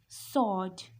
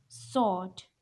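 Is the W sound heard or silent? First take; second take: silent; silent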